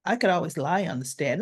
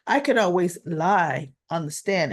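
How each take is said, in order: First: Said in the usual way. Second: Pointed repeat. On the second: Retold or imitated. Vlogger repeats Christina's line to a lawyer, pointedly. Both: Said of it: "Now she's telling this to a lawyer".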